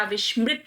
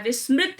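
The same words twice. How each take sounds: First: विस्मृत said with "sh"; "vish-mrit" for विस्मृत; sh before m in विस्मृत; corrected form. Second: विस्मृत said with plain "s"; "vis-mrit" for विस्मृत; hissed dental s in विस्मृत; wrong form. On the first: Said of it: "विस्मृत होता है". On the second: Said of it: "विस्मृत नहीं होता". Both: Shown as a demonstration.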